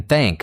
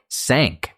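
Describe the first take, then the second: First: Said in the usual way. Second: "sank" with an s in place of th; th mispronounced as s. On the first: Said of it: "your thish in thank sounds like sank". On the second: Shown as a demonstration. Teacher showing a learner's slip, th turned to s in "sank". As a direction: say "sank", a hissed s replacing the th of thank. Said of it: "thank sounds like sank".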